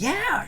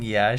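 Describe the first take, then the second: First: It is said brightly, with exaggerated enthusiasm. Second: It is said flatly, without enthusiasm. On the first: The agreement may come across as sarcastic. "Need to be more like, ... sounds kind of uh, sarcastic" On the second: The speaker is not really convinced. "That was the most unconvincing"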